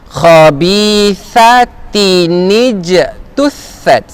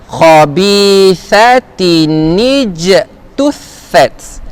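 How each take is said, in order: No difference in how they are said.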